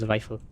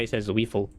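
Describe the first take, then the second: First: Zweifel said the German way, tsvai-fel. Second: Zweifel read as written, wee-fel; spelled Zweifel. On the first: Streamer showing chat the right German Zweifel. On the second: Streamer showing how the name looks on paper, read literally. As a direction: Zweifel the English way. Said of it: "how the heck do you say that". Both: Shown as a demonstration.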